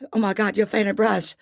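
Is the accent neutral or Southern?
Southern. It is said in a Southern American accent.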